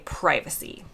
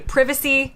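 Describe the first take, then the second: First: It is said with an American pronunciation. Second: It is said with a British pronunciation. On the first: "In the U S, we say" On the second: "In the U K, they say"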